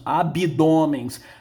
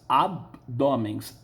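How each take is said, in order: First: An extra i sound comes after the b. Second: The b goes straight into the d. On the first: The speaker calls it wrong. "na língua coloquial falamos abdômens. Nós colocamos um i aí" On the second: The speaker calls it right. "a pronúncia correta é abdômens"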